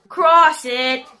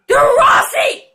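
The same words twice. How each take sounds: First: Said in the usual way. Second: High-pitched, frantic yell at the game; urgent yell. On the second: Real, not acted. Player urges his team to cross, yelling. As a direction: yell it much higher, urgently.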